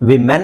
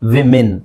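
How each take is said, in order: First: The second syllable sounds like 'men'. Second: The second syllable sounds like 'min'. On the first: The speaker calls it wrong. "ವಿಮೆನ್ ಅಲ್ಲ" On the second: The speaker calls it right. "English ಡಿಕ್ಷನರಿಲಿ ... ಇದು ಹಾಗೆ ಇರುತ್ತೆ"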